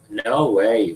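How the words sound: The pitch falls at the end. It shows frustration. "Falling intonation"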